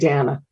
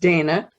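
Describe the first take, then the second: First: The name is said the older way. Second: The name is said the common modern way. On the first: This is how the name's owner says it. "but I pronounce it Dana" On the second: This is how most people say the name today. "the way they do it now"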